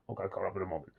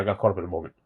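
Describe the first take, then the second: First: Much softer, under the breath; sheepish mumble. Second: Said in the usual way. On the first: Real, not acted. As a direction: mumble it to yourself. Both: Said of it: "No, no, I'm sorry".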